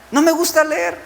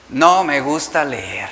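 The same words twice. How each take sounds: First: Put-on much higher whiny child voice. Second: Put-on lower, slow sulky child. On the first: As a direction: whine "No me gusta leer" high with stress on "me". (niño quejumbroso con voz aguda) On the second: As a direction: drag out "No me gusta leer" low and reluctant. (niño enfurruñado, grave y lento) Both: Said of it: "Es lo que te van a decir tus hijos".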